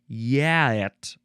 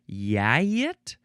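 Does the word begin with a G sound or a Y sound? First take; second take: Y sound; Y sound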